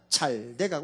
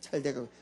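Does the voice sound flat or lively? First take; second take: lively; flat. First: It is said with lively, warm intonation. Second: It is said with flat, lifeless intonation. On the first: Things really are getting better. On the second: Nothing seems to be getting better at all.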